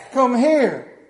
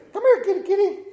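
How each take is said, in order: First: Loud, raised-pitch order to the cat; commanding call. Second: Very high, loud kitty-calling voice; imitating wife's cat call. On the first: Retold or imitated. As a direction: call the cat over forcefully. His own call to the cat. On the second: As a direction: mimic a wife coaxing the cat in falsetto.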